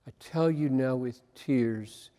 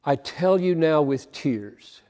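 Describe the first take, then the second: First: Quiet repeat. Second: Said in the usual way. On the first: Shown as a demonstration. Preacher repeating the verse to himself, hushed and softer. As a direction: lower and much softer, turned inward. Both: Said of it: "could not get away from".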